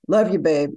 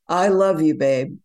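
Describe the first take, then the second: First: It is said casually and offhandedly. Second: It is said warmly and sincerely.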